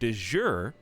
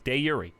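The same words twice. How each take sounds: First: It is pronounced in an English-style way. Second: It is pronounced in the original Latin way. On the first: The speaker calls it wrong. "I had been saying de jure" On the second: The speaker calls it right. "We found the original Latin pronunciation. It's de jure"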